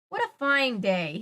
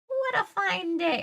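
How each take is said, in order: First: It is said in the reader's ordinary voice. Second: It is said in a cackly, witchy put-on voice.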